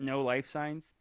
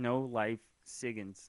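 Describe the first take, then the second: First: The word signs is said as one syllable. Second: The word signs is said as two syllables. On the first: "we look at no life signs" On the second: "We should say start saying no life SIGINs"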